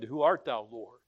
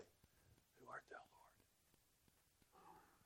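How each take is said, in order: First: It is said in a normal, full voice. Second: It is said in a whisper. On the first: The speaker calls it wrong. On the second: The speaker calls it right.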